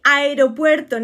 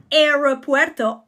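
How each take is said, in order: First: Aeropuerto mit spanischem r und klarem pwe; correct Spanish aeropuerto. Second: Aeropuerto mit englischem r und verschliffenem pwe; wrong anglicized aeropuerto. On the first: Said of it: "That's the correct way". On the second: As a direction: aeropuerto falsch englisch sagen. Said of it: "not aeropuerto". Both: Shown as a demonstration.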